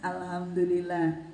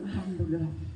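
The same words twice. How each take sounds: First: It is said with a cheerful smile. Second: It is said with a sulky frown.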